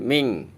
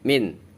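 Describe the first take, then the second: First: The word ends in an ng sound. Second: The word ends in a clear n sound. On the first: The speaker calls it wrong. "bukan ming" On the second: The speaker calls it right. "dibaca jelas terang"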